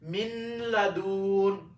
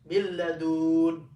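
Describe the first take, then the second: First: The n is pronounced separately before the l. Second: The n is dropped and merged into the l. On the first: The speaker calls it wrong. "It sounds really dumb" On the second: The speaker calls it right. "we attach the mim to the lam and skip the nun"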